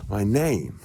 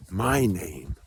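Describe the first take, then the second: First: Said in the usual way. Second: MY stressed, falling through name. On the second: Real, not acted. Setting his own name against the government one, stress on MY. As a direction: lean on the word MY.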